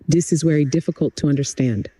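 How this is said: It is said in an Indian accent. "Com o sotaque indiano"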